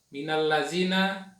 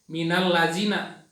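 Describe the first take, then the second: No difference in how they are said.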